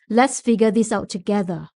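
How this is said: It is spoken in a deep, chest-resonant voice. "from the chest resonance"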